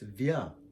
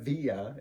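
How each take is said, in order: First: It is said as one gliding syllable. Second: It is said as two separate syllables. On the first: The speaker calls it right. "it's vya" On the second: The speaker calls it wrong. "It's not via"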